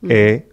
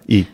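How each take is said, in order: First: The vowel is an open 'eh' sound. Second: The vowel is a close 'ee' sound. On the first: This is the ancient Greek pronunciation. "on suppose qu'ita s'est prononcé e" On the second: This is the modern Greek pronunciation. "comme un grec moderne, ita, i"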